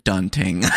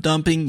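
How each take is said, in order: First: "dunting" with nt in place of mp; mispronounced dumping. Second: Said in the usual way. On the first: Shown as a demonstration. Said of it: "you said dunting". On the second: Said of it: "instead of dumping, you said dunting".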